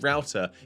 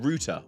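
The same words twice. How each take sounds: First: It is said with an American pronunciation. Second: It is said with a British pronunciation.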